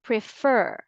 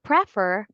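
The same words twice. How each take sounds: First: "prefer" said pre-FER, the stress on the second syllable; correct stress. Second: "prefer" said PRE-fer, the stress wrongly on the first syllable. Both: Shown as a demonstration. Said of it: "Not prefer".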